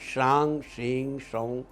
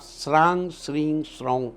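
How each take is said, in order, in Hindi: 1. पहला शब्द 'sh' ध्वनि से शुरू होता है। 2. पहला शब्द 's' ध्वनि से शुरू होता है। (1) "चंद्रदेव का मंत्र है" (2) "अगर आप श्रांग श्रीं सौं कह देंगे तो वो केतु का मंत्र हो जाएगा"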